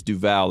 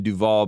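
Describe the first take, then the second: First: Duval ending like "pal"; corrected name pronunciation. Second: Duval with an open "-vawl" ending; wrong name pronunciation. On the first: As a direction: say Duval with a flat-A "-val". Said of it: "but it's Duval". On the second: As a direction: say Duval to rhyme with "all". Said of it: "saying his name wrong". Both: Shown as a demonstration.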